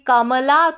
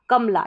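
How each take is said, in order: First: The m syllable is drawn out with a vowel. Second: The m is short with no vowel after it. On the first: "इस म का sound म थोड़ा लंबा खींचकर बोल रहे हैं तो ... ए लिखेंगे" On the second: "म पे जो है जोर कम पड़ रहा है"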